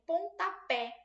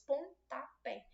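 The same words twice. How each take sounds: First: Said in the usual way. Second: "Pontapé" split as pon-ta-pé; short pause between each syllable of "Pontapé". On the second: Shown as a demonstration. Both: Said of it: "só que tem três sílabas".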